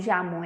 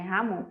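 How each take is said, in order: First: The word begins with a soft J sound. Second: The word begins with a raspy throat sound. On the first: The speaker calls it wrong. "não Jamon" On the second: The speaker calls it right. "é Ramon, porque esse tem som de R"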